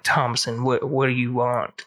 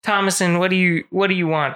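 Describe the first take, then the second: First: A lower, softer, laid-back cowboy voice; hint of a cool dark stranger; cool suave cowboy. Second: Said in the usual way. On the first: Shown as a demonstration. The devil as a cowboy speaks to Thomason, low and cool. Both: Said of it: "he's actually all cool".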